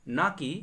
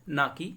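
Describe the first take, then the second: Both takes have the same delivery.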